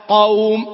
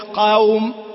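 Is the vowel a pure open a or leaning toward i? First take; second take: pure; leaning. First: The vowel is a pure open a. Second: The vowel leans toward an i sound. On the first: The speaker calls it right. "قوم ما هي قوم" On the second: The speaker calls it wrong. "ما هي قوم"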